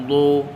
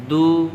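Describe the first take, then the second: First: দু thick and heavy, vowel darkened toward "o"; heavy Dad. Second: Said in the usual way. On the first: Shown as a demonstration. Teacher contrasting thin and thick letters, heavy দু. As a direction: fatten the D of দু, back of tongue raised. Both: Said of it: "মোটা".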